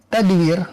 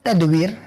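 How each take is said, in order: No difference in how they are said.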